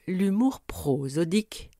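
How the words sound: The pitch dips and lingers long on 'pro'. It sounds like a regional Alsatian accent. "en plongeant et en m'attardant sur cette même syllabe"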